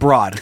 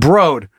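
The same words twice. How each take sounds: First: The vowel sounds like the vowel in law. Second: The vowel rhymes with the word road. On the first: The speaker calls it wrong. "not Broad, with a B. Like the lady" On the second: The speaker calls it right. "it's pronounced Broad, like road"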